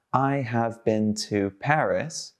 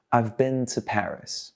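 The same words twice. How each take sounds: First: "I have" as two separate words, slowly; slow model with "have" unreduced; uncontracted full form. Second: "I've" run together as one word; natural model with "I've" contracted; contracted form. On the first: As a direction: say "I have" fully, each word apart. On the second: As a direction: link "I've" into a single syllable. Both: Shown as a demonstration. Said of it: "Do you hear one word or two?".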